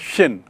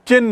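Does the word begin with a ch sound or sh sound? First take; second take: sh; ch. First: The word begins with a sh sound. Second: The word begins with a ch sound. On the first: The speaker calls it right. "उच्चारण है शिन" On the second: The speaker calls it wrong. "याद रखिए चिन नहीं है"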